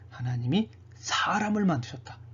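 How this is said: The word 사람을 carries the emphasis. The focus is on man as the peak of creation. "창조의 절정인 사람을 강조하는 것이다"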